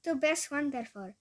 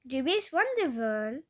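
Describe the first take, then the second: First: "Du bist wonderful" repeated more briskly, falling at the end; learner's careful echo of "Du bist wonderful", falling tune; closer German attempt. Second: "Du bist wonderful" loud and slow, with an English-sounding "wonderful"; rough learner's stab at German "Du bist wonderful", drawn out; botched German attempt. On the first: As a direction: copy German "wundervoll" in "wonderful", less stretched. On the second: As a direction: overdo "wonderful" with a big pitch swoop. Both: Shown as a demonstration. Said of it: "j'y étais presque".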